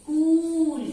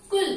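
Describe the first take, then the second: First: कूल with a long drawn-out u, higher and louder; long u vowel. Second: कुल with a short, clipped u; short u vowel. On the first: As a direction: stretch the u in कूल with force. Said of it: "ज्यादा देर लगी हमें बोलने में". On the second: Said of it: "छोटे ऊ की मात्रा है". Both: Shown as a demonstration.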